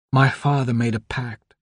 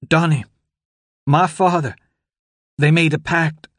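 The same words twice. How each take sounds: First: Firmer, steadier delivery. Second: Feeble croak, higher. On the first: Anna, recovering, tells Donald firmly. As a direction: find her strength again. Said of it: "her voice gaining strength". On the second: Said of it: "her voice feeble and distant". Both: Acted.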